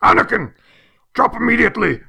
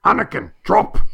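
First: High, loud movie-hero command; hammed-up Jedi warning shout; Liam Neeson yell. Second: Qui-Gon Jinn shouting a warning; sudden urgent movie shout; Liam Neeson yell. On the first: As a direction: bark the order like Liam Neeson in a panic. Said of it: "with different inflections". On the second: Retold or imitated. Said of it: "and he yells".

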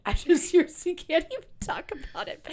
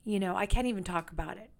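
First: High, loud laughing repeat. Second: Said in the usual way. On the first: Real, not acted. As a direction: laugh it out, a bit overwhelmed.

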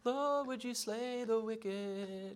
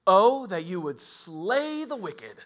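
First: Higher, very slow, drawn-out mock prayer; mock sweet prayer. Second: Slow, louder plea to slay the wicked; David's prayer turning. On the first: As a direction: pray it like a sweet hymn line. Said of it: "it's like". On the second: Retold or imitated. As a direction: let the prayer turn hard and slow. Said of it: "he goes from".

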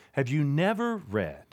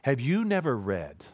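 First: Never leaned on and falling; stress on never. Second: Said in the usual way. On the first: Acted. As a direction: press the word never.

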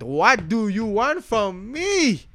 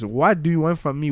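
First: High, slow, pleading [name] voice; hammed-up [name] plea; [name] impression. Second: Said in the usual way. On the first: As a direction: stretch it out like [name] begging. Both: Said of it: "[name] voice".

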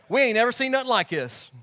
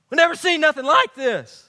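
First: Said in the usual way. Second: Louder, higher "We've never seen nothing like this"; amazed crowd. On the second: Retold or imitated. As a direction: exclaim it in astonished disbelief.

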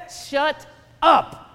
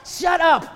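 First: "Shut up" loud, split into two separate words; emphatic repeat. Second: High, loud outburst in one go; exasperated shout. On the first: Preacher silencing the weatherman a second time, each word apart. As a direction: punch "Shut", pause, then punch "up". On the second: Preacher silencing the fearmongering weatherman, loud and exasperated. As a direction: cut off the babble with a shout. Snaps back at the mocked forecaster. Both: Acted.

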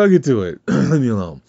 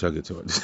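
First: Louder, higher "I'll get to it", pushed out firmly; annoyed louder retort. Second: Softer, trailing mumble of "I'll get to it"; quiet dismissive mumble. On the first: Son telling his mom to leave him alone, louder. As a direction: snap back "I'll get to it" to end the talk. Second, firmer brush-off of mom. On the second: Son brushing off his mom, mumbling it softly. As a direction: mutter "I'll get to it" under the breath. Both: Retold or imitated.

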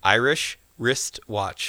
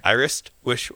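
First: Careful, deliberate "Irish wristwatch"; slow careful Irish wristwatch. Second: "Irish wish" rushed and slurred together; quick tongue twister. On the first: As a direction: say "Irish wristwatch" slowly, each sound clear. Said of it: "can you say Irish wristwatch". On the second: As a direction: rush "Irish wristwatch" into "Irish wish". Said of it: "Say it a little quicker". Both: Shown as a demonstration.

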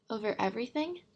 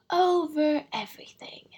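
First: "everything" rising into a question; questioning echo. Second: High, loud, grandly sweeping answer; magnificent simplicity. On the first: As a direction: echo it, lifting "everything" in wonder. Prince echoes the king in question. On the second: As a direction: pronounce it grandly, like a king. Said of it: "said the king with magnificent simplicity". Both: A narrator's reading.

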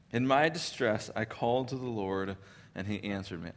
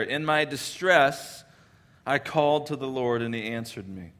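First: Quieter second reading that fades out on "answered me"; soft repeat. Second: Weight on "distress", drawn out slowly; slow emphatic reading. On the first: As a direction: let the repeat sink down to almost nothing. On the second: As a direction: lean into "In my distress" as a heavy, slow cry. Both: Shown as a demonstration. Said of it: "and he starts his prayer".

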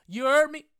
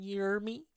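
First: Loud high yelled repeat; shouted hype. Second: Said in the usual way. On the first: Acted. Podcaster hyping his listeners, loud high yell.

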